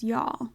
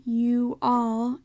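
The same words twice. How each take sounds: First: "y'all" clipped to one quick syllable; "y'all" said short and soft, one syllable. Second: "you all" as two full separate words; "you all" spread over two syllables. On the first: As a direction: squeeze "y'all" into a single beat. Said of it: "it would be a different timing versus". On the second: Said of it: "if you said". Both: Shown as a demonstration.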